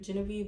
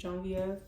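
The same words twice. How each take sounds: First: The name is said as its spelling suggests. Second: The name is said the Louisiana family way. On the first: This is the reading the spelling suggests. "it looks like it's supposed to be pronounced" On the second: This is how her Louisiana family says it. "Her family's from Louisiana, so they pronounce it"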